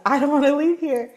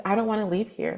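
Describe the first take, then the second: First: Quicker, higher plea with a lift on LEAVE; insistent repeat. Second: Said in the usual way. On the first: Retold or imitated. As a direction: push "leave" up high, hurried and insistent. Repeats the wish more insistently.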